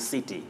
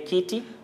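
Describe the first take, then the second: First: The word begins with an S sound. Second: The word begins with a K sound. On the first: The speaker calls it right. "it has sound S in center or city" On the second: The speaker calls it wrong. "or do we say kitty?"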